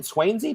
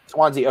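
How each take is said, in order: First: "Swainsey" with a long "ay", like "swain"; unsure pronunciation. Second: "Swansea" with an open "ah", SWAHN-zee; corrected pronunciation. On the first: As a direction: try "Swainsey" as SWAYN-zee, questioning. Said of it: "is it Swainsey?". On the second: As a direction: say "Swansea" like "swan" plus "zee". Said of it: "Okay, gotcha". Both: Real, not acted.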